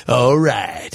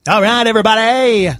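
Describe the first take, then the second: First: Low, smooth DJ impression; cool DJ voice. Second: Too-nasal mock DJ call; nasally DJ voice. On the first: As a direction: drop low like a club DJ. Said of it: "His was like". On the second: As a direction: hype the room through your nose. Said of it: "That was too nasally".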